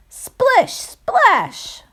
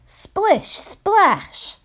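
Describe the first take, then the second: First: High, punchy sound words; splashy sound effect, louder. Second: High, bouncy sound words; splashy sound effect. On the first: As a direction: splash it out even bigger. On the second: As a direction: splash it out playfully. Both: Acted. Sound effects read to children.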